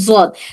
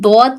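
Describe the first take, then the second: First: The word begins with a z-like sound. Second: The word begins with a d-like sound. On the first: This is the Urdu way of saying it. "Urdu में हम जिसको बोलते हैं ज़ौद बोलते हैं" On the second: This is the Arabic way of saying it. "हम अरबी ज़ुबान में दौद कह रहे हैं"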